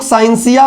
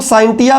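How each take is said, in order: First: साइंसिया said "sain-SI-ya", with an s; "s" pronunciation. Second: साइंटिया said "sain-TI-ya", with a t; a t, not an s, in साइंटिया; "t" pronunciation. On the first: Teacher shows one reading to class, साइंसिया with an s. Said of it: "इसको कुछ लोग साइंसिया भी पढ़ते हैं". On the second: Teacher shows another reading to class, साइंटिया with a t. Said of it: "इसको कुछ लोग साइंटिया भी पढ़ते हैं". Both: Shown as a demonstration.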